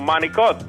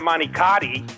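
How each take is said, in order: First: It is said the Italian-American way. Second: It is said the plain American way. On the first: The speaker grew up in an Italian home. The speaker calls it right. "I got to be able to say" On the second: The speaker did not grow up in the culture. The speaker calls it wrong.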